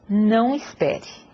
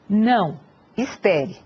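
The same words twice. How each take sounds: First: The two words run together without pause. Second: There is a pause after the first word. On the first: Telling the listener not to wait. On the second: Refusing, then asking the listener to wait.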